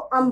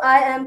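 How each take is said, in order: First: The two words merge into one short syllable. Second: Both words are said separately in full. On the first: "contraction ... अम बोला जाता है" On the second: "आई एम को"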